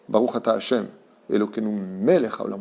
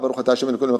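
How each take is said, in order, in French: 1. Elle se dit lentement, avec des pauses. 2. Elle se dit rapidement, sans pauses. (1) "on parle du roi" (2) "On ne dit pas"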